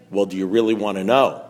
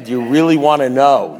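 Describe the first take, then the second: First: Low, measured, knowing question; knowing sponsor. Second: Louder, hammed-up teasing question; mock the big reveal with punch; mocking repeat. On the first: Retold or imitated. Sponsor offering an answer to the whiner, knowing. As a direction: dangle the answer in a lowered voice. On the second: Man mimicking his sponsor's crap, mocking.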